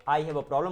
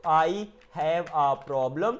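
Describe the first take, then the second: First: Said in the usual way. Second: Very slow, stretched words. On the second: Shown as a demonstration. Teacher translating a computer problem for learners, word by word. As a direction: give each word its own space.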